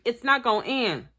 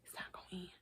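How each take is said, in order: First: Said in the usual way. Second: Whispered It's not gonna end. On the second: Real, not acted. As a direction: breathe it out voiceless.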